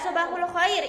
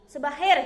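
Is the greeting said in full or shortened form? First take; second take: full; shortened. First: Every syllable of the greeting is said fully. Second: The greeting is clipped into fewer syllables. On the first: This is the standard formal Arabic form. "itu fusahnya" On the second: This is a casual local way of saying it. "Mister bilangnya cuma ini sebahir"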